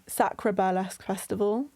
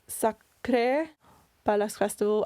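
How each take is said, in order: First: It is said in a British accent. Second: It is said in a French accent. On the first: "in a British accent" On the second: "In a French accent"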